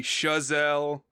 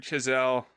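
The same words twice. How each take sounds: First: Chazelle said shuh-ZELL; alternative pronunciation of Chazelle. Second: Chazelle said chi-ZELL; short i in the first syllable of Chazelle; pronunciation of Chazelle. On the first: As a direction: open SHUH at the start of Chazelle, drawn out. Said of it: "it could be Chazelle". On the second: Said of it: "I've heard Chazelle". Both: Shown as a demonstration.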